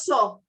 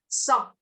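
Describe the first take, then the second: First: The vowel is said more closed. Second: The vowel is said more open. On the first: The speaker calls it wrong. "Not saw" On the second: The speaker calls it right. "More open"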